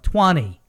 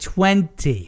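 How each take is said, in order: First: The middle t is dropped, like twonny. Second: The middle t is clearly pronounced, English-style.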